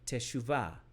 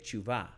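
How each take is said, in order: First: The first vowel is fully pronounced. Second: The first vowel is dropped.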